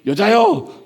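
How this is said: It is said in a rude, brusque tone. The speaker is disrespecting his mother. The speaker calls it wrong. "불손해 보입니다"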